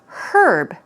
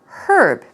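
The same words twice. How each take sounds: First: The word starts with an audible H sound. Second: The same.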